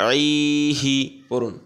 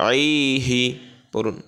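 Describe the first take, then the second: No difference in how they are said.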